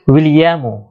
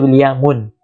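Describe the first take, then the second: First: The name ends in a short u vowel. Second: The name ends in an -un with nunation. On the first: The speaker calls it right. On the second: The speaker calls it wrong.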